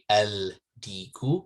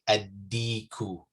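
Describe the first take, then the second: First: The L of the article is clearly heard. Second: The L merges into a doubled d sound. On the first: The speaker calls it wrong. "You wouldn't say el diku. That would be wrong" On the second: The speaker calls it right. "so you would say adiku"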